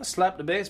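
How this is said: It is spoken in an Irish-sounding accent. The speaker calls it wrong. "You sound like a leprechaun"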